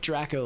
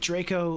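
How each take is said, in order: First: The first syllable matches the start of 'Dracula'. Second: The first syllable differs from the start of 'Dracula'. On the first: It echoes the name Dracula. "Or like Draco like Dracula?" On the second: It names the Harry Potter character. "Like Draco like Harry Potter?"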